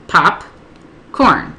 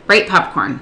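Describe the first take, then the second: First: POP, pause, CORN as two separate beats; broken up by syllable. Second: Said in the usual way. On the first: Shown as a demonstration. Tutor modelling breaking up a word, POP and CORN apart. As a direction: say "popcorn" split cleanly into POP ... CORN. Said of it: "Break it up by syllable". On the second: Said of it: "You don't wanna say".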